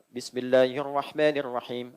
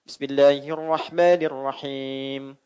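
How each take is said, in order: First: It is recited fast with short vowel lengthening. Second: It is recited with moderately lengthened long vowels. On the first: "Itu namanya hadar, bacaan cepat dua harokat" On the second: "Itu empat harakat"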